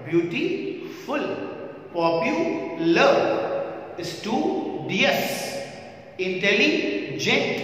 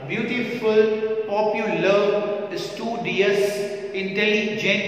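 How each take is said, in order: First: Slow ब्यूटीफुल and पॉपुलर with a pause between syllables; split into syllables. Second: ब्यूटीफुल and पॉपुलर with a small stop between syllables; syllables marked. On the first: Teacher showing students how to break words into syllables. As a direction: stretch स्टूडियस and इंटेलिजेंट, pausing inside each word. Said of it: "ऐसे कहना पड़ेगा हमें". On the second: Teacher repeating the words with a break in each. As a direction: break स्टूडियस and इंटेलिजेंट into parts as you say them. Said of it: "थोड़ा सा रुकना पड़ेगा". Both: Shown as a demonstration.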